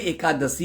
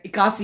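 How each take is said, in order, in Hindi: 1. यह 'ekadashi' जैसा बोला जाता है, हर अक्षर साफ़ सुनाई देता है। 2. यह 'ikyasi' जैसा बोला जाता है, आवाज़ें आपस में मिल जाती हैं। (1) "एकादशी होती है। उच्चारण शुद्ध लिया करो।" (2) "आप लोग क्या बोलते हैं इक्यासी है"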